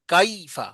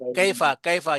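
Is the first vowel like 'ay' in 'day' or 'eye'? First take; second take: eye; day. First: The first vowel glides like 'eye'. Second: The first vowel is a pure 'ay' sound. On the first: The speaker calls it right. "खाई की तरह।" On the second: The speaker calls it wrong. "ये गलत है।"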